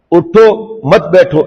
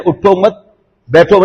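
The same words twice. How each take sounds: First: Slow اٹھو, a pause, then مت بیٹھو as one phrase; pause after اٹھو. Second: اٹھو مت run together, a pause, then بیٹھو; pause after مت. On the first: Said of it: "یہ کہا تھا". (اٹھو پر رک کر، مت بیٹھو ملا کر) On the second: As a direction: break after مت, leaving بیٹھو separate. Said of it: "یہ کون بتائے گا کہ شیخ نے". (اٹھو مت کے بعد وقفہ، پھر بیٹھو) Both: Shown as a demonstration.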